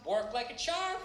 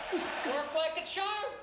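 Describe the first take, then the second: First: Said in the usual way. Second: "Worked like a charm" drawn out slowly, higher; slow emphatic repeat. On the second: Shown as a demonstration. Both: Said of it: "And I gotta tell you something".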